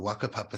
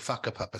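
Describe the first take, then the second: First: The word begins with a W sound. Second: The word begins with an F sound. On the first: The speaker calls it wrong. "what is spelt as the" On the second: The speaker calls it right. "it's actually pronounced"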